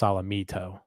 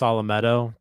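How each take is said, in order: First: The third syllable sounds like the word 'me'. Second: The third syllable sounds like 'met', not 'me'. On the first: "he's a me me guy" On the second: "Maybe it's Salametto"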